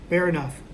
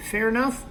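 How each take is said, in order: First: Fair enough. with a falling, settled tune; answering tune. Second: Fair enough? with a rising question tune; asking tune. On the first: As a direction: confirm it, drop the pitch on "Fair". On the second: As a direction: ask it, let "enough" go up in pitch. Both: Shown as a demonstration.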